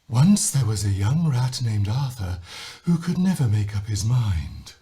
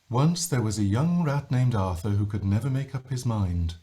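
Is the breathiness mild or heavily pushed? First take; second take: pushed; mild. First: Much air is pushed out with speed. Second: Air leaks out gently, without pushing.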